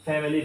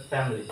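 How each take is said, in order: First: "ফ্যামিলি" as fam-i-lee; "ফ্যামিলি" with the middle vowel sounded; mistaken pronunciation. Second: "ফ্যামিলি" as FAM-lee; "ফ্যামিলি" with silent middle i; correct pronunciation. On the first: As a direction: say "ফ্যামিলি" in three syllables. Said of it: "ফ্যামিলি না". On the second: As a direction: say "ফ্যামিলি" in two syllables. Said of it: "আইটা উচ্চ থাকবে". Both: Shown as a demonstration.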